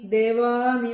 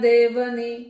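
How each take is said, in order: First: The second vowel is long. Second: The second vowel is short. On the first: The speaker calls it wrong. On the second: The speaker calls it right.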